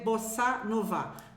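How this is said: It is pronounced with French sounds. "Vous dites en français bossa nova"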